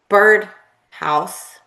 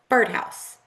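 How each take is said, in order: First: The two parts are said as separate words. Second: The two parts are joined into one unit. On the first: The speaker calls it wrong. "We don't say bird house" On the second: The speaker calls it right. "we say birdhouse"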